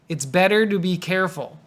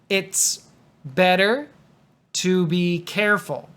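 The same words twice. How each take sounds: First: It is said fast, with to sounding like do. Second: It is said carefully, with a clear t in to. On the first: "but if I say it fast" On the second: "So that's a T at the beginning"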